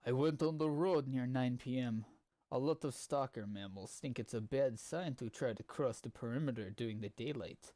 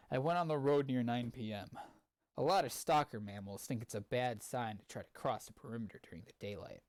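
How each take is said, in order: First: Reading in a put-on Russian accent. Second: Said in the usual way. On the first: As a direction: narrate it with a heavy Russian accent. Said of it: "I wanna be reading some of this with a Russian accent". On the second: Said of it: "I'm just gonna read it normally".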